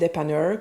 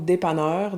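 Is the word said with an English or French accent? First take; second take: English; French. First: It is said with an English accent. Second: It is said with a French accent.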